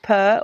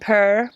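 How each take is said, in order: First: It is said with an Australian or English accent. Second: It is said with an American accent. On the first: "if you're Australian or, or English" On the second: "or if you're American"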